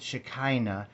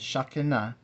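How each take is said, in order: First: It is pronounced with English-style sounds. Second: It is pronounced with Hebrew-style sounds. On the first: "In our pronunciation of it in English, usually we call it" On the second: "the proper Hebrew way of pronouncing this word is"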